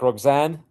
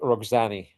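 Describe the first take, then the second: First: The name ends on the n sound. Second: The name ends with a sounded final vowel. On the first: "it's like Roxanne" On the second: "because of the E at the end, you pronounce it Rox- Roxani"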